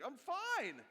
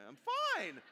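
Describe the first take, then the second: First: Plain. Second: "fine" pitched up high and falling, a forced cheery lie; fake I'm fine. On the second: Pastor showing how people say "fine" when they're lying, voice going up high. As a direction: lift the voice up on "fine" to show the lie. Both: Shown as a demonstration. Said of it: "Whenever your voice goes up when you say".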